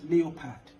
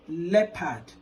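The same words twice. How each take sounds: First: The first vowel is not a short 'e'. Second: The first vowel is a short 'e' sound. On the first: The speaker calls it wrong. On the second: The speaker calls it right. "represents the vowel sound E"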